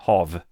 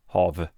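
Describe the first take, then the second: First: The word ends with a clear V sound. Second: The word ends with a clear V sound.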